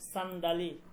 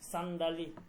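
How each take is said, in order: The two takes are said the same way.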